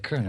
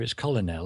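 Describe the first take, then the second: First: The word is sounded differently from its spelling. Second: The word is sounded out as it is spelled.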